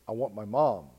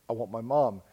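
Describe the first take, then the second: The two takes are said the same way.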